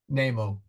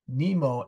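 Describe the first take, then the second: First: The first vowel is said long. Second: The first vowel is said short. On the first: The speaker calls it right. "long E" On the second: The speaker calls it wrong. "Jules Verne is sneaking in there"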